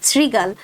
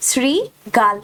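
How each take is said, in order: First: Said in the usual way. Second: "শৃগাল" drawn out as sri, gal; "শৃগাল" modelled syllable by syllable; correct pronunciation. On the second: Shown as a demonstration. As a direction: split "শৃগাল" into two clear syllables. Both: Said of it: "এর সঠিক উচ্চারণ রূপ কোনটি".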